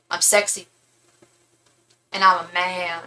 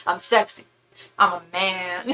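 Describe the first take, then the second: First: Lightly voiced deadpan star, long pause between phrases; impression of a singer. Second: Hint of a put-on star voice, brief pause between phrases; impression of a singer. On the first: Drag queen doing a singer for the Snatch game, lightly voiced impression. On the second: Recalling the singer clip for a friend, lightly voiced impression. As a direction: lightly mimic a mock seductive boast. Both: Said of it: "she did Prince".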